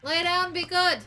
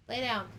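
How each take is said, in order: First: Firm command. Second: Said in the usual way. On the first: Real, not acted. Commanding dog louder.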